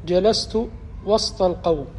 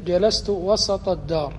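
First: وسط with a vowelless s, "wast al-qawm"; sukun on seen. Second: وسط with an "a" after the s, "wasat ad-dar"; fatha on seen. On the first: Teacher giving the grammarians' example of "between", وسط said wast with sukun. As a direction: run the s straight into the t in وسط. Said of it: "الوسط يكون بالسكون". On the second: Teacher giving the contrasting house example, وسط said wasat with fatha. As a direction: open the seen of وسط with a short a. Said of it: "وإلا فهو بالفتح". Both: Shown as a demonstration.

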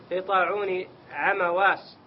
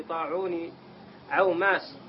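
First: "عمواس" carefully said a-ma-was; corrected place name. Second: "عوماس" misread with a long first syllable; mispronounced place name. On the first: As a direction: reread slowly with "عمواس" in three syllables, a-ma-was. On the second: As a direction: stumble on the name, saying "عوماس" as aw-mas. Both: Real, not acted. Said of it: "عم-، عم-، عمواس".

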